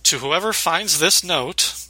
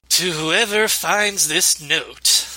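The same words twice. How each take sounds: First: It is read in an ordinary speaking voice. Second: It is read in a put-on character voice.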